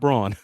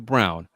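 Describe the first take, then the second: First: The name is said with a different vowel. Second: The name sounds like the colour word brown. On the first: The speaker calls it wrong. "not Braun" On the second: The speaker calls it right. "it is Brown"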